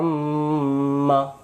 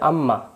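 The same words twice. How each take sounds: First: The doubled m is held with nasal hum. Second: The doubled m is short without nasal hum. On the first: The speaker calls it right. "এটার সহি উচ্চারণ শুদ্ধ করে গুণনা আদায় করতে হবে" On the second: The speaker calls it wrong. "আর যদি আমরা বলি আম্মা তাহলে মিমের যে ওয়াজিব গুণনা ওয়াজিব গুণনা বাদ চলে যাবে"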